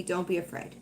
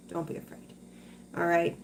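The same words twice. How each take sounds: First: Said in the usual way. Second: Much softer, whispered reassurance; hushed whispered comfort. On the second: Real, not acted. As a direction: breathe it to her gently. Reassuring a worried viewer.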